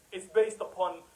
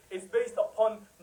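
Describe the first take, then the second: No difference in how they are said.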